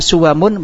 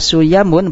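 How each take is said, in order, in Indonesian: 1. Konsonan tengahnya bunyi w. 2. Konsonan tengahnya bunyi y. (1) "menetapkan wawu" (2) "mengganti wawu menjadi ya"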